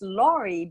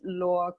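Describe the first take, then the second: First: The name ends with a sounded final vowel. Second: The name ends without a sounded final vowel. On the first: The speaker calls it wrong. "it's oftentimes pronounced Laurie because the uh, E at the end" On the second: The speaker calls it right. "the final E in French is always silent. So we pronounce it"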